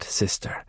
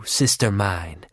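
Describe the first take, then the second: First: Sister breathed out in a voiceless whisper. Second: Low, slow, savouring sister mine; slow low taunt. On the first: Bonanak soothes her sister, menacing. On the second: Bonanak taunts her sister. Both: Acted.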